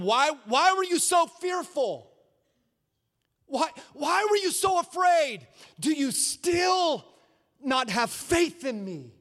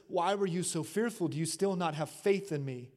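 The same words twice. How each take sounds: First: Stern rebuke. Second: Gentle question. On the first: Jesus rebuking the disciples. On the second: Jesus's question retold softly. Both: Acted.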